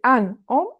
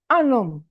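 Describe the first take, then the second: First: The words are said without a linking n sound. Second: The words are joined with a linking n sound. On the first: The speaker calls it wrong. "You don't say an homme" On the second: The speaker calls it right. "This is called also la liaison"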